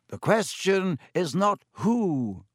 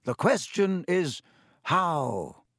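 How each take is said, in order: First: Slow, grave, "not" weighted; stress on not. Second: Slow, "how" set apart after a pause; pause, then land on "how"; stress on how. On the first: Dumbledore correcting McGonagall, gravely stressing not. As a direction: lean hard on "not". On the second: Dumbledore answering McGonagall, weighting how. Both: A narrator's reading.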